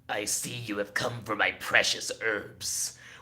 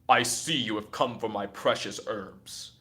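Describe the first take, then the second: First: The voice is rough and gravelly, like Palpatine. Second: The voice is smooth, not gravelly.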